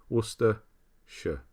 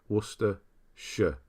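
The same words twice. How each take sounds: Both takes have the same delivery.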